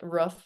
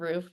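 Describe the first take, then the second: First: It is said with a Massachusetts accent. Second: It is said with a general accent.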